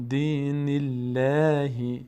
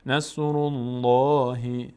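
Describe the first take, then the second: First: Slow chant, light L in "الله"; thin light Allah. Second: Slow chant, heavy rounded L in "الله"; full heavy Allah. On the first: Teacher showing the difference after kasra, thin L. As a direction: keep a long "الله" thin. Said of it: "باریک". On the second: Teacher showing the difference after damma, full L. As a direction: fill out a long, dark "الله". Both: Shown as a demonstration.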